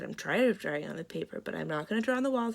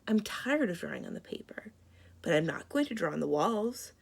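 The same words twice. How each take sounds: First: The words are read quickly and run together. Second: The words are read slowly and kept apart. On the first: It is hard to follow and sounds dull. The speaker calls it wrong. "you can cruise right through them... it kind of runs together" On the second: It is easy to follow and sounds interesting. The speaker calls it right. "it's easier to understand because I slowed down"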